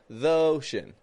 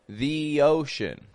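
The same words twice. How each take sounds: First: 'The' has a short schwa run into 'ocean'. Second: 'The' has a long E with a Y glide. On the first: The speaker calls it wrong. "it sounds too mushed up. Sounds like it's all one word" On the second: The speaker calls it right. "more the. ... after that E, I am making kind of like a yo"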